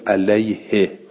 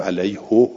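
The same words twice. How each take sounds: First: علیه said with a kasra ending, "alayhi"; recited form of علیه; final "hi". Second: علیهو said with a damma ending, "alayhu"; hypothetical form of علیه; final "hu". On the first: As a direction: end علیه on an "i" sound. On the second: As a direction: end علیهو on a "u" sound. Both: Shown as a demonstration.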